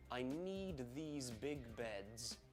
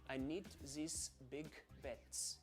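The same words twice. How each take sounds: First: The final sound of beds is voiced and buzzy. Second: The final sound of beds is devoiced and hissy. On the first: "listen to this in an English accent first of all" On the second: "And now in German, ... Almost like a T S on the end, very hissy"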